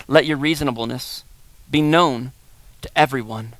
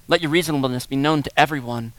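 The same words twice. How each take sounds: First: "Let your reasonableness" then pauses before "be known" and "to everyone", lower and slow; slow verse reading. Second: Said in the usual way. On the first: Shown as a demonstration. Pastor reading the verse aloud, phrase by phrase. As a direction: read "Let" first and pause between phrases. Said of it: "reading the verse twice". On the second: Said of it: "repeated verse".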